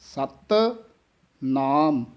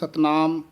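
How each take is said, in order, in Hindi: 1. पहला शब्द दृढ़ता से बोला जाता है और अलग रखा जाता है। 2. दोनों शब्द बिना रुके जुड़े हुए बोले जाते हैं। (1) "ਥੋੜ੍ਹਾ ਜਿਹਾ ਕੱਸ ਕੇ ਉਚਾਰਨ ਕਰਨਾ" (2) "ਕਈ ਇਕੱਠਾ ਹੀ ਬੋਲ ਜਾਂਦੇ ਹਨ"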